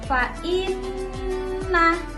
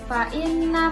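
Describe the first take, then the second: First: The double n is held long with a nasal hum. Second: The double n is short, without a nasal hum. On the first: The speaker calls it right. "harus benar-benar ditekan, harus mendengung" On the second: The speaker calls it wrong. "jangan hanya dibaca fa inna mal, itu bukan ya"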